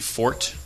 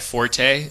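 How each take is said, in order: First: The word is said with one syllable. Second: The word is said with two syllables. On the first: The speaker calls it right. "it's supposed to be fort" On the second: The speaker calls it wrong. "when people say that's not my my forte"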